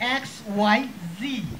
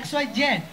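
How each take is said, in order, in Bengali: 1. শেষ অক্ষরটি 'zee' হিসেবে উচ্চারিত হয়। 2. শেষ অক্ষরটি 'zed' হিসেবে উচ্চারিত হয়। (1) "আমেরিকান স্টাইলে সেটা হচ্ছে জি" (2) "আমরা শিখেছি এক্স ওয়াই জেড"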